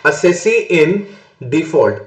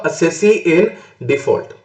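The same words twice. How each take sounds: First: Said in the usual way. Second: Each word drawn out slowly; teacher spelling out the term for students, slow and deliberate; slow dictation. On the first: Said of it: "assessee in default क्या मतलब". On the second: Shown as a demonstration. Teacher answering his own question, stretching the term very slowly. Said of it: "तो मैं क्या बन जाऊंगा?".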